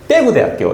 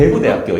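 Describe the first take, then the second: First: The stress is on the first syllable. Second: The stress is on the second syllable. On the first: The speaker is from Busan. "부산은 맨 앞에 강세가 있다는 거예요" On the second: The speaker is from North Gyeongsang. "북도는 강세 억양이 대구에 있어요. 구"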